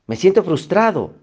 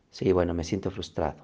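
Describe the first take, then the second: First: Más agudo y más fuerte, soltando la frustración; "Me siento frustrado" exclamado alto y fuerte, con ímpetu; frustración exclamada. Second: Más grave y más suave, resignado; "me siento frustrado" dicho bajo y suave, aceptándolo; aceptación tranquila. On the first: (descubriendo su frustración con ímpetu) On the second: (reconociendo la emoción con calma) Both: Shown as a demonstration. Ejemplo de identificar la emoción.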